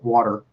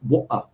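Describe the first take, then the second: First: It is said with an American accent. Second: It is said with a glottal British accent.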